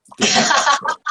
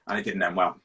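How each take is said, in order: First: High, louder, laughing through the words; giggling punchline. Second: Said in the usual way. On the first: Real, not acted. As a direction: crack up as you repeat it. Repeated line, laughing, as a punchline.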